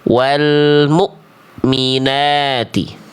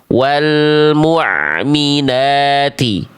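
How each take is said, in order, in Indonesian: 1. Bunyi setelah 'mu' terputus mendadak di tenggorokan. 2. Bunyi setelah 'mu' mengalir dari tengah tenggorokan. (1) "Kalau hamzah tuh putus bunyinya dari pangkal tenggorokan" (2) "yang A yang kita baca tadi itu huruf ain. Suaranya mengalir sedikit dari tengah tenggorokan"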